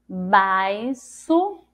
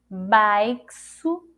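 First: The x is sounded as an s. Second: The x is sounded as ks. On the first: "Vamos tentar com som de si" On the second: "E com som de ceci"

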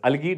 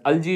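First: The middle consonant is a hard g sound. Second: The middle consonant is a soft j sound. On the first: "you can pronounce it as अलगी" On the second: "pronounce it as अल्जी"

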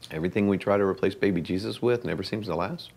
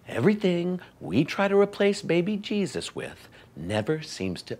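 First: It is said at a normal speed. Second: It is said slowly.

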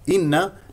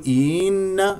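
First: The first vowel is short. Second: The first vowel is stretched into a long ee. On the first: The speaker calls it right. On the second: The speaker calls it wrong.

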